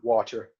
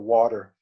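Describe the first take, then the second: First: It is said in an English accent. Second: It is said in a North American accent. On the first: "In in England" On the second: "North America"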